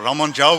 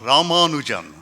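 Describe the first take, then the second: First: The name is said with some vowels dropped. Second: The name is said with every vowel pronounced. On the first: "in an authentically Tamil way, then you could feel free to drop some vowels" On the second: "so I can tell you how to pronounce the name"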